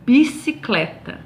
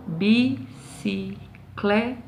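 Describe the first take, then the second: First: Said in the usual way. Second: "Bicicleta" slowly in four separate beats, BI, CI, CLE, TA; separado em sílabas. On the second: Shown as a demonstration. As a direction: count out "Bicicleta" syllable by syllable, softer, pausing after each. ("Bicicleta" pausadamente, bi... ci... cle... ta) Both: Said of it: "Tem quatro sílabas".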